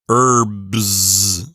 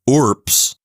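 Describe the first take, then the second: First: The final consonants are voiced, like b and z. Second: The final consonants are voiceless, like p and s. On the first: "we'd say the B and the S with our vocal cords vibrating" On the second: "pronounce it as voiceless"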